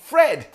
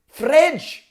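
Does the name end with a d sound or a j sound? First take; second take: d sound; j sound. First: The name ends with a plain d sound. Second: The name ends with a j-like sound.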